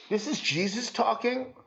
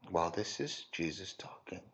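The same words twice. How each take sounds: First: Rising, disbelieving question on is; incredulous question. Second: Much lower and softer settled answer; quiet affirmation. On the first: Preacher asks the congregation in mock disbelief, rising. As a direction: ask it as if you can't believe it. Repeats as answer. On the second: Preacher quietly confirms to the congregation, low and soft. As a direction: answer your own question gently and firmly. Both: Real, not acted.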